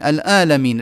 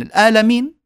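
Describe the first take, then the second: First: الآلمين with the ain swallowed into a long a; ain dropped. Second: الآلمين with a hard glottal stop, high and loud; mock الآلمين with a sharp hamza; ain as hamza. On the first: Retold or imitated. Teacher mocking a faulty reciter, ain dropped. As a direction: imitate الآلمين, ain gone. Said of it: "يقرأ وكأنه يخشع". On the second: Teacher mocking reciters who turn ain into hamza. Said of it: "يحولون العين إلى همزة".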